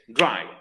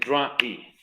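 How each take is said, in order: First: The vowel glides within a single syllable. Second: The vowel is split into two syllables. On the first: The speaker calls it right. "una sílaba ... es un diptongo" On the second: The speaker calls it wrong. "no es dry"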